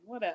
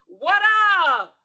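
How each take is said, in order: First: It is said with little energy. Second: It is said with lively enthusiasm.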